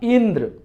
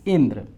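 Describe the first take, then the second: First: The first sound ई is said with strong force. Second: The word is said plainly, without extra force.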